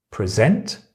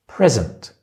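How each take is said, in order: First: "Present" stressed on its second syllable, preSENT, rising at the end. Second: "present" stressed on its first syllable, PREsent, falling. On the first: Teacher contrasting word stress for students, "Present" stressed on the second syllable. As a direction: say "Present" as preSENT, with a questioning lift. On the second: Teacher contrasting word stress for students, "present" stressed on the first syllable. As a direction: say "present" as PREsent, with a final fall. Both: Shown as a demonstration. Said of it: "Which part of the word do you stress?".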